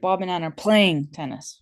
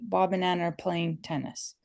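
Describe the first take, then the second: First: The word playing carries the stress. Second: No word is stressed more than the others.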